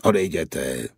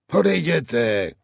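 First: Said in the usual way. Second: Cracked shout. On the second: A narrator's reading. The guard on the wall yells the riders away, cracked shout. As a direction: shout odejděte up at them in a cracked voice. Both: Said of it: "křičel muž nakřáplým hlasem".

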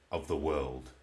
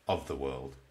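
The two takes are said the same way.

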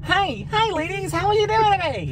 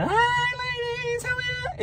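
First: Much higher pitch greeting. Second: Very high, slow, softer falsetto; falsetto, octave up. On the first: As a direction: pitch your hello way up high. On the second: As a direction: stretch it out in a tiny, sky-high falsetto. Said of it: "one octave up". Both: Shown as a demonstration.

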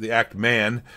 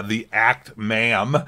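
First: "Man" said cleanly with a final n; corrected Act Man. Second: Says "Ma'am" slowly with a rising end, the n slipping to m; slow stumble on "the Act Ma'am", ending in m; misspoken Act Ma'am. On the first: Correcting the YouTuber's name right after the slip, "Act Man" said clearly. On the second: Misnaming the YouTuber in a debate, "Act Ma'am" said slowly. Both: Real, not acted. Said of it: "Yeah, boom roasted".

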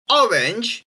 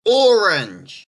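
First: Orange said "ORR-inj", short o; short British o in orange. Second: Orange said "OR-unj"; "or" opening on orange, r sounded; North American orange. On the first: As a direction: say orange as "O-rinj". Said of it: "R P and Australian English". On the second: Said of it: "Canadians and Americans are gonna pronounce it". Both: Shown as a demonstration.

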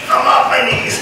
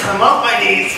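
First: Higher, indignant shout. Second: Said in the usual way. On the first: Real, not acted. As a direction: yell it back in protest. Protesting to coach, repeated louder.

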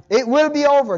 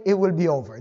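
First: WILL stressed high and loud in "It will be over"; emphatic insistence. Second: Said in the usual way. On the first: Real, not acted. Preacher encouraging believers to hang in there, emphatic on WILL. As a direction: punch WILL with raised pitch and volume.

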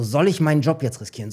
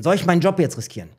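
First: Said in the usual way. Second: Repeating it faster, pressing himself; hurried second asking of the same question. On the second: Retold or imitated. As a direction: player weighing his job, repeating himself faster. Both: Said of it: "Ich so".

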